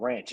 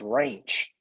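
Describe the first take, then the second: First: The word is said in a neutral accent. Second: The word is said in a Southern drawl. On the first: "it's not just called ranch" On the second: "southern inflection"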